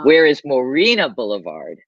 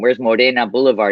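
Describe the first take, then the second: First: Morena is said with an Anglicized pronunciation. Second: Morena is said with a Spanish pronunciation. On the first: Listeners understood which street was meant. "you had to Anglicize the Spanish word to be understood" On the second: Listeners did not understand which street was meant. "With his heavy Mexican accent"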